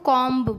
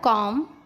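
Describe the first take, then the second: First: The final b is pronounced. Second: The final b is silent. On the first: The speaker calls it wrong. "कुछ कुछ लोग इसको कॉम्ब बोलते हैं, वो गलत है" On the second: The speaker calls it right. "M के बाद यदि बी आए तो बी साइलेंट हो जाता है"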